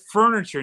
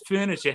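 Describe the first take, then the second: First: It is said in a standard American accent. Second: It is said in a Massachusetts accent. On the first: The speaker is not from the area. "because you said furniture" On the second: The speaker is a local. "So up there it's furniture"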